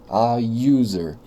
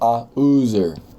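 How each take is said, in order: First: User begins with a Y sound. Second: User begins with a plain vowel, no Y sound. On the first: The speaker calls it right. "eu tenho um som de Y aqui na frente" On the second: The speaker calls it wrong. "Eu não falo a user"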